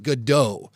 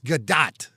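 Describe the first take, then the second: First: The surname is said with a French-style ending. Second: The surname is said without a French-style ending. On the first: The speaker calls it wrong. "That's more of like a French sort of pronunciation" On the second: The speaker calls it right. "It's Gadot"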